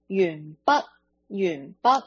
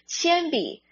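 First: The word is pronounced in Cantonese. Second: The word is pronounced in Mandarin. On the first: "在粤语里面呢，我们会发音变成云云云" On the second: "跟在广东话里面跟普通话其实是还有一些距离的"

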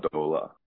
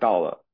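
First: The first syllable has an 'ou' vowel. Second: The first syllable has an 'ao' vowel. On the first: This is the local Shanghai form. "她会说兜了兜了这样的说法" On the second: This is the standard form. "我们到了"

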